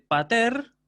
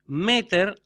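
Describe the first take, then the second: First: "pater" stressed on the last syllable, pa-TER, rising; stress on final syllable. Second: "Meter" stressed on "Me", high and loud, then falling; stress on first syllable. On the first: Teacher modelling Greek for the class, "pater" stressed on -ter. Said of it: "con acento agudo al final". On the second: Teacher contrasting mother with father, first-syllable stress on "Meter". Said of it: "pero en la sílaba anterior". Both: Shown as a demonstration.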